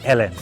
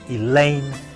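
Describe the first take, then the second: First: The name is said as Ellen. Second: The name is said as Elaine. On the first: The speaker calls it wrong. "Don't make a mistake. Don't say Ellen" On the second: The speaker calls it right. "No, it's Elaine Brittel"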